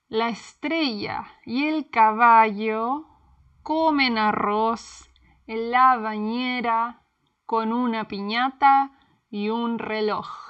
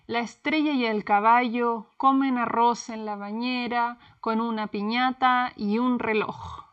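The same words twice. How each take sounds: First: It is said at a slower pace. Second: It is said at a faster pace.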